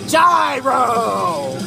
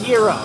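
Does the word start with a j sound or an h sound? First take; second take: j sound; h sound. First: The word starts with a j sound. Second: The word starts with an h sound. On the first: The speaker calls it wrong. "We call it a gyro. Like a gyroscope" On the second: The speaker calls it right. "But it's actually pronounced hero"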